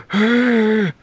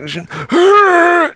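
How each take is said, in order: First: Smaller mock gasp. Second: Sharp dramatic gasp, high pitched; loud mock gasp. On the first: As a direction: gasp more lightly. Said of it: "It should be more like". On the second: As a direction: gasp theatrically. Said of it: "Was it too much".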